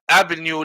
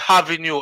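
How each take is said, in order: First: The word starts without an h sound. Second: The word starts with an added h sound. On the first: "instead of saying down the avenue" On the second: "them say avenue"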